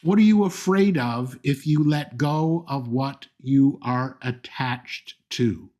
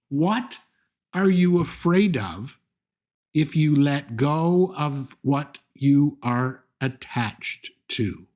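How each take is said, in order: First: It is said at a normal, quicker pace. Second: It is said slowly and deliberately.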